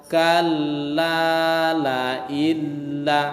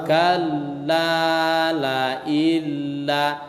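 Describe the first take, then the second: No difference in how they are said.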